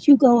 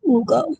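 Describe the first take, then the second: First: The name is said the English way. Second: The name is said the native-language way. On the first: "I've heard some people say Hugo" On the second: "it might be Ugo in his native language"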